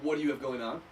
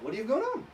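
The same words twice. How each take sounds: First: The voice does not rise at the end. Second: The voice rises at the end. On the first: "There's two ways I can say this" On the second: "With my voice inflection going up"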